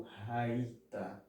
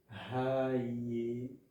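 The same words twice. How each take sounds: First: "raita" slowly, no e before "ta"; slow model "raita", silent sheva; correct pronunciation. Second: "Raieta" stretched out syllable by syllable; long, deliberate "Raieta" in three syllables; wrong pronunciation. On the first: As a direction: say "raita" with "rai" as the strong syllable. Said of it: "e sim raita". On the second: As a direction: draw out "Raieta" with a sounded e before "ta". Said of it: "não é raieta". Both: Shown as a demonstration.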